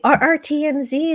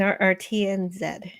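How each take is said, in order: First: The last letter is said the American way, 'zee'. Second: The last letter is said the Canadian way, 'zed'.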